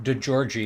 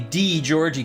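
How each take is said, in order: First: The first syllable has a short schwa vowel. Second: The first syllable has a long E vowel. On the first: The speaker calls it right. "like with a soft um, schwa I, is that what they call it? Is more correct" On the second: The speaker calls it wrong. "D, long E"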